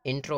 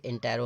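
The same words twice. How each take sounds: First: "इंट्रो" in two syllables, in-tro; contrasted short form. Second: "इंटेरो" in three syllables, in-te-ro; contrasted full form. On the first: Teacher separating two look-alike words, "इंट्रो" said as in-tro. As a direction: say "इंट्रो" with t and r joined, no vowel between. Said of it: "इंट्रो अलग चीज़ होती है". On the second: Teacher separating two look-alike words, "इंटेरो" said as in-te-ro. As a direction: say "इंटेरो" with a clear vowel between t and r. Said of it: "इंटेरो अलग होता है". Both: Shown as a demonstration.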